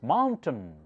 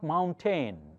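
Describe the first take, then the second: First: The second syllable has a reduced uh vowel. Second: The second syllable has a full vowel. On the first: The speaker calls it right. "That's the schwa uh sound" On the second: The speaker calls it wrong. "So it's not mountain"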